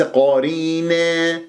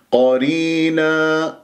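First: قرينا ending in a long "neee", like "eh"; faulty fronted final vowel in قرينا; wrong tilted ending. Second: قرينا ending in a long open "naa"; slow recitation, open ending on قرينا; correct open alif. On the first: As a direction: tilt the last alif of قرينا toward "e". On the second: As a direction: stretch the last vowel of قرينا, untilted. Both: Shown as a demonstration. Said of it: "لا تمل الألفات".

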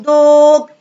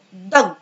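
First: دوج with a long, high, held vowel; wrong long vowel. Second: دوج with a short, clipped o; short vowel. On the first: Teacher shows pupils what not to say, دوج with a long vowel. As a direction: stretch the o in دوج far too long. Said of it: "ما اعرفش اقول". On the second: Teacher gives pupils the right take, دوج with a short vowel. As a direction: drop lower and cut the vowel in دوج short. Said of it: "ما اعرفش اقول دوج". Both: Shown as a demonstration.

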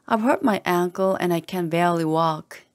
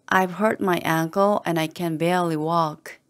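No difference in how they are said.

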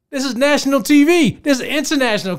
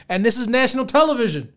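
First: Higher, louder repeat of national T V; outraged emphasis. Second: Said in the usual way. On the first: Real, not acted. Vlogger stressing the show aired on national TV, loud outraged emphasis. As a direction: hammer the point home in disbelief.

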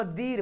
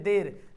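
First: दीर with a long ee, "deer"; spelling pronunciation. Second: देर with an e, "der"; usual spoken form. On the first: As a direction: stretch the ee in दीर. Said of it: "देर लिखा हुआ". (दीर में ई खींचकर) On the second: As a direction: say देर with e, not ee. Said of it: "पढ़ते हैं". (देर में ए की आवाज़) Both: Shown as a demonstration.

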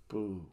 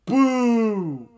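First: Soft, low little boo; half-hearted, quiet boo; deflated booing. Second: Very high, loud, sustained boo; hammed-up drawn-out jeer. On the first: Pretend. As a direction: let the jeer fizzle out. Boos dwindle to a mutter. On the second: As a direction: heckle at full volume. Jeering a wrestler.

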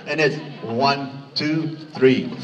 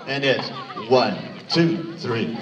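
Both takes have the same delivery.

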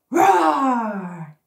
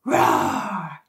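First: Loud drawn-out roar. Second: Low, growling roar; deep warrior roar. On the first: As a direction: let the roar out big. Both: Shown as a demonstration. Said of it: "you say roar".

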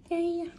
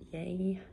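First: Higher, louder cheerful yay; excited yay. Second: Said in the usual way. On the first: Real, not acted. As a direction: cheer it up brightly.

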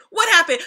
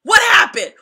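First: A bit higher and louder, firm demand; mock stern parent repeat. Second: Much higher, loud shouted question; mock angry parent shout; parent yelling. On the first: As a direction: press the kid for an answer. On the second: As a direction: yell it like a parent catching a lying kid. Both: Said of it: "they be like".

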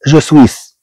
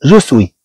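First: "je suis" with the final s sounded, "swees"; the wrong "je suis", s pronounced; wrong pronunciation. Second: "je suis" ending on the vowel, s silent, "swee"; the right "je suis", no final s; correct pronunciation. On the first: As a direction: say "je suis" wrongly, hissing the s at the end. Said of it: "لا تقرأ je suis". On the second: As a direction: say "je suis" properly, dropping the s. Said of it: "هاد إس لا تنطق". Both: Shown as a demonstration.

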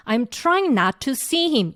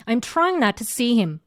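First: Slow, "to" said long and clear; full to. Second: Slow, "to" cut short to a quick t; reduced to. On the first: Teacher showing the wrong careful version, "to" long. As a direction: pronounce "to" fully and long. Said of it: "이게 아니고". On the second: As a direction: clip "to" to a short t. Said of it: "이렇게". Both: Shown as a demonstration.

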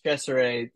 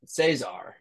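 First: "Cesare" with a ch opening and three syllables, CHESS-er-ay; correct pronunciation. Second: "Cesar" as SAY-zar, two syllables with an s opening; common mispronunciation. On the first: Explaining the beer's name, "Cesare" said CHESS-er-ay. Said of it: "it's Cesare spelled Saison". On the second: Showing what everybody says, "Cesar" said SAY-zar. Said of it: "but everybody says Cesar". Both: Shown as a demonstration.

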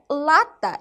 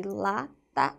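First: Said in the usual way. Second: "lata" split into two drawn syllables, la, ta. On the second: Shown as a demonstration. Teacher showing the first syllable of the word, syllable by syllable. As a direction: break "lata" after la, softly.

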